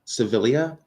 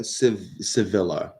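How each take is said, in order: First: "Sevilla" said suh-VIL-ee-uh, rising; extra syllable. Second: "Sevilla" said si-VIL-uh, falling; L pronounced. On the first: Streamer unsure of viewer's name, "Sevilla" as suh-VIL-ee-uh, rising. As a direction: try "Sevilla" as a question ending in -lee-uh. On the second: Streamer trying viewer's name, "Sevilla" as si-VIL-uh. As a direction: say "Sevilla" with an L, ending in -luh. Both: Real, not acted. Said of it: "I don't know how it's".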